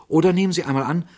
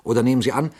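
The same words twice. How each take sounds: First: Excited. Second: Said in the usual way. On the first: Shown as a demonstration. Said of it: "same phrase, heated third time". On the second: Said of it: "same phrase repeated".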